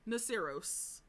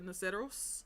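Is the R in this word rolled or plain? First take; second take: plain; rolled. First: The R is plain, without a trill. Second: The R is rolled with a trill. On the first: "but if you can't, uh, that's fine, or don't want to" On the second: "because I can roll my R's ... so I say this as the Naceros"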